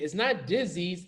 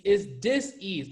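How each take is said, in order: First: Said in the usual way. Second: Dis-ease split into dis and ease; dis-ease with a clear break after dis; hyphenated dis-ease. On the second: Shown as a demonstration. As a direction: say dis-ease slowly as two parts, dis then ease. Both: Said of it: "You gotta hyphenate it".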